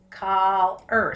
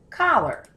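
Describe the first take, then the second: First: "collar" broken in two, coll then er; syllable by syllable. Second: Said in the usual way. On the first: Shown as a demonstration. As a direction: stretch "collar" into two separate beats. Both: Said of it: "my syllable break".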